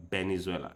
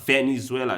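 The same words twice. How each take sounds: First: VENEZUELA begun with B, as Benezuela, lower and softer; Spanish B sound. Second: Said in the usual way. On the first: Shown as a demonstration. Learner contrasting Spanish way with English, B sound. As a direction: swap the V of Venezuela for a B. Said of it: "they say, like". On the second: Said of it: "instead of Venezuela".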